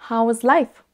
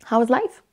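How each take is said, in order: First: How and is are said as separate words. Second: How and is are contracted into one syllable. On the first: The speaker calls it wrong. "c'est plus long et plus compliqué de dire How is life" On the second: The speaker calls it right. "essayez de raccourcir les, les deux et de dire How's life?"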